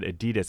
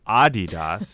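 First: The name does not sound like 'Adi Dass'. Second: The name sounds like 'Adi Dass'. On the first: This is how the other speaker said it. The speaker calls it wrong. "You said Adidas" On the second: This follows the founder's name. The speaker calls it right. "It's Adidas, named after Adi Dassler"

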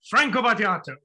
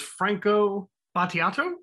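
First: The name is said loudly and with force. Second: The name is said softly and tentatively. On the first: The speaker commits to the name confidently. "with power" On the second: The speaker is unsure of the pronunciation. "I'm not sure"

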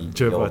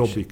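First: The beginning of the word sounds English. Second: The beginning of the word sounds Hungarian. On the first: The speaker calls it wrong. "It's not Jobbik. At the beginning" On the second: The speaker calls it right. "What is the pronunciation? Jobbik"

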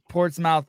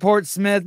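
First: The final syllable is said fully like 'mouth'. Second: The final syllable is reduced and weak. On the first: This follows how the name is written. "but it's spelled Portsmouth" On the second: This is how the locals say the name. "It's said Portsmouth"

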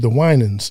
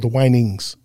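First: The name ends in a plain 'nans' sound. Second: The name ends in an 'nings' sound. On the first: "they said the [name]" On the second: "the guy mispronounced, he called the [name]"

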